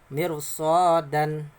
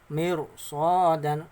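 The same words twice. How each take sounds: No difference in how they are said.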